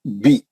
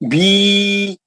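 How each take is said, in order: First: The vowel is short, held one count. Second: The vowel is long, held two counts. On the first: The speaker calls it right. "खींचेंगे नहीं आप।" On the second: The speaker calls it wrong. "बोले तो गलत हो जाता है ना, दो मकदार हो जाते"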